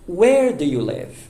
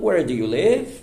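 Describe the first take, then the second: First: The voice falls at the end. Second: The voice rises at the end. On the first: The speaker calls it right. "uma entonação apropriada é uh" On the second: The speaker calls it wrong. "E não"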